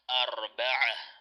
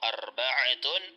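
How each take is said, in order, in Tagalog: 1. Nagtatapos ang salita sa tunog na h. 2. Nagtatapos ang salita sa buong pantig na 'tun'.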